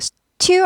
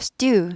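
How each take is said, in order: First: The t is released with a strong puff of air. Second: The t is tense with almost no puff of air. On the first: The speaker calls it wrong. "stew 아니고" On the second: The speaker calls it right. "경음화되죠"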